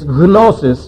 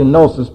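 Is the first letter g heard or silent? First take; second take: heard; silent. First: The initial g is pronounced. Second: The initial g is silent. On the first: This is the Greek way of saying it. "It's gnosis in Greek because there are no silent letters" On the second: This is the English way of saying it. "It's actually gnosis in English"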